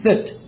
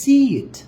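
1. স্বরধ্বনিটি bed শব্দের e-এর মতো শোনায়। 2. স্বরধ্বনিটি see শব্দের ee-এর মতো শোনায়। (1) "আপনি বসতে মানে বসতে বলতেছেন সেট" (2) "আর আসল ইংরেজি সিট"

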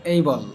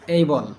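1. প্রথম স্বরধ্বনিটি একটি 'ay' diphthong. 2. প্রথম স্বরধ্বনিটি একটি 'ay' ডিপথং।

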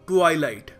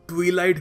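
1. पहले शब्दांश में 'eye' स्वर है। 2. पहले शब्दांश में 'ee' स्वर है। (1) "सही प्रोनंसिएशन है ट्वाइलाइट" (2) "कुछ लोग ट्वीलाइट भी बोलते हैं, जो गलत है"

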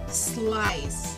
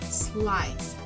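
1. La palabra empieza directamente con el sonido s. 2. La palabra empieza directamente con el sonido s.

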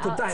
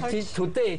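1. 这个词结尾是类似 'eye' 的元音。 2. 这个词结尾是普通的 'ay' 元音。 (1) "他A 他翻成I 的音" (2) "他说你来today"

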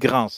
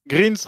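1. Le nom se termine par un son s sifflant. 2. Le nom se termine par un son z qui bourdonne. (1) "on dit Grince" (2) "J'ai prononcé Greens, mais non"

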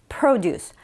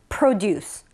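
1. 강세는 첫 번째 음절에 있어요. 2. 강세는 첫 번째 음절에 있어요.

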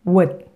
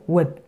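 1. 모음을 짧게 끊어 발음해요. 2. 모음을 짧게 끊어 발음해요.

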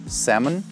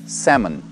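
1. Звук L в этом слове не произносится. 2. Звук L в этом слове не произносится.

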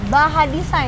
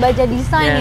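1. Konsonan tengahnya bunyi h. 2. Konsonan tengahnya bunyi j.

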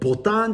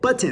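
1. カタカナ英語風の発音です。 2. アメリカ英語の発音です。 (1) "ボタンじゃなくて" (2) "それはひゃくパーセントアメリカ英語だと思います"

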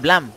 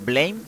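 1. No suena como blame en inglés. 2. Suena como la palabra en inglés blame. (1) "según la Wikipedia, se pronuncia Blame" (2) "como pues una persona que habla inglés, supongo que lo pronunciaría como Blame"

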